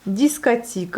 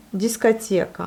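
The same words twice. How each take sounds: First: "discothèque" as "dis-ka-TI-ka"; wrong third vowel. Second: "discothèque" as "dis-ka-TYE-ka"; Russian pronunciation. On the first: Teacher reads a rejected option, wrong vowel. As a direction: say "discothèque" Russian-style with plain I for YE. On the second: Teacher corrects the rejected option, Russian pronunciation. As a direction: say "discothèque" with O as A and stressed YE. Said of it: "le O se prononce comme le A". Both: Shown as a demonstration.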